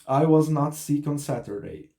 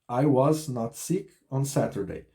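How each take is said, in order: Both takes have the same delivery.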